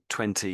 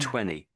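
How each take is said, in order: First: The second T sound is clearly pronounced. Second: The second T sound is left out. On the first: The speaker calls it right. "So twenty is the correct way" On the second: The speaker calls it wrong. "you missed out the t the second T. So you said"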